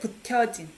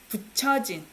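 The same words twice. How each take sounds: First: The second syllable does not begin with ch. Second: The second syllable begins with a ch sound. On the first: The speaker calls it wrong. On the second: The speaker calls it right.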